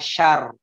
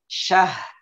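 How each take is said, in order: First: The word ends with r and no h. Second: The word ends with h and no r. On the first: "ada yang membacanya syar" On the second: "ada yang membacanya syah"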